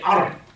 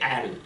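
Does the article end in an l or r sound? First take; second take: r; l. First: The article ends with an r sound. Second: The article ends with a clear l sound. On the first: The speaker calls it right. "you say Ar" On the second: The speaker calls it wrong. "You don't say Al"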